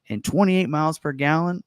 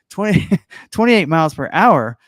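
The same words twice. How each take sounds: First: Hyped announcer stating the spec. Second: Laughing through a correction. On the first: Pretend. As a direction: punch it out like a promo announcer. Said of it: "like, announcer voice". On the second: Real, not acted. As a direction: correct yourself while cracking up.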